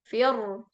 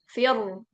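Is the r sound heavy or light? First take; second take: heavy; heavy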